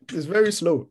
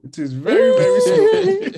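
First: Said in the usual way. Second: Very slow, rising high and loud; drawn out slowly. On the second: Shown as a demonstration.

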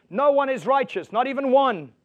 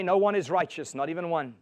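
First: Higher, louder, hammering each word; emphatic repeat. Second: Said in the usual way. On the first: Shown as a demonstration. Preacher answering the Mother Teresa objection, loud and emphatic. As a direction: slam it home the second time. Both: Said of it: "what about Mother Teresa?".

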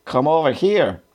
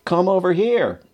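First: Mild mock call in a German accent, pitched high; restrained high-pitched German-accented holler; German-accented shout. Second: Lightly voiced sergeant, much higher, falling at the end; mild mock holler across a distance; sergeant calling back. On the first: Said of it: "shouted in English with a strong German accent". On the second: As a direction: echo the request as a high, drawn call. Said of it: "one of our sergeants repeated the request". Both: A narrator's reading.

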